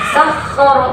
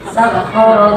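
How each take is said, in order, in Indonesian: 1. Konsonan ganda mendapat hentakan keras. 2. Konsonan ganda diucapkan biasa saja, tanpa hentakan. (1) "bukan sakhara, bukan" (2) "sakhara biasa aja"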